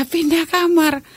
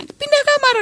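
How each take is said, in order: First: Slow, disbelieving repeat, a little higher; stunned echo. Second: A roommate telling her to move rooms, raised high; quoted command. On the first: Umi echoes the friend's order in slow disbelief. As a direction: repeat the order slowly, half in shock. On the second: Friend tells Umi to move out, quoted high and firm. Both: Retold or imitated.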